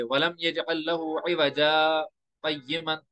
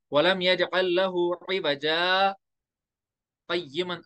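First: इवजा runs straight into क़य्यिमन with no real stop; no pause, wrong way. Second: Slow recitation, a clear one-second stop after इवजा before क़य्यिमन; one-second pause. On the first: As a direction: recite without stopping after इवजा, the wrong way. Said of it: "आप अगर ऐसे पढ़ोगे, ये लगेगा ही नहीं रुकते". (इवजा और क़य्यिमन बिना रुके, गलत तरीका) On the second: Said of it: "कम से कम एक सेकंड करो". (इवजा के बाद एक सेकंड रुककर क़य्यिमन) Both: Shown as a demonstration.

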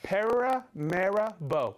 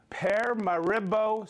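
First: Paramaribo slowly as PAIR-uh-MAIR-uh-bo, every syllable placed; careful corrected pronunciation. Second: Paramaribo run together as PER-muh-ri-bo, unsure first attempt; first try at Paramaribo. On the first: Host showing he looked it up, slow careful Paramaribo. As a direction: lay out Paramaribo deliberately, proud to get it right. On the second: Host reading viewer's city, unsure first try at Paramaribo. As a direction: stumble through Paramaribo before checking it. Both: Real, not acted. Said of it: "'cause I looked up the pronunciation".

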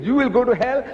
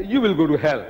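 First: "You will go to hell" pitched high, rising at the end; opponent's threat. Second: "You will go to hell" at usual pitch, falling; retort in kind. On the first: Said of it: "He says". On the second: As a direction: answer back with "You will go to hell," closing downward. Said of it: "We say". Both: Retold or imitated.

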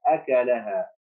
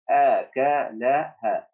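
First: Said in the usual way. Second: أكلها stretched slowly, syllable by syllable; slow reading. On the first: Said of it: "teacher repeats normally". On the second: Shown as a demonstration. Teacher modelling أكلها slowly for first graders. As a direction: draw out أكلها for the class. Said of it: "teacher models reading".

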